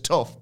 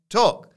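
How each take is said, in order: First: The name ends with an f sound. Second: The name ends with a k-like sound. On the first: The speaker calls it wrong. "I read it as Angus Tuff" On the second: The speaker calls it right. "pronounced like Tuck"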